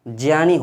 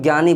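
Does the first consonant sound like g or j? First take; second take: j; g. First: The first consonant is a j sound. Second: The first consonant is not a j sound. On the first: The speaker calls it right. "जो ज्ञा बनता है वो जा और इया से मिलकर बनता है" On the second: The speaker calls it wrong. "जो कि बिल्कुल गलत है"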